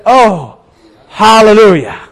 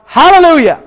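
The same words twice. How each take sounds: First: Drawn-out relieved exclamation; acted relief. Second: High-pitched shouted command; storyteller's shout. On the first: Rider wiping his brow at the cliff edge, relieved exclamation. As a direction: let it out after a narrow escape. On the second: Retold or imitated. Rider sets his sled dogs off, high acted shout. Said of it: "he shouts out really loud".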